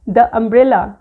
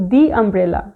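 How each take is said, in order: First: "the" said as "thuh" before umbrella; the with short uh. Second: "the" said as "thee" before umbrella; a slower, clear "thee" umbrella. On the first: Teacher testing the wrong way before a vowel, short "thuh". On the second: Teacher showing the right way before a vowel, "thee". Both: Shown as a demonstration. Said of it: "मैंने ये particular word कैसे बोला है".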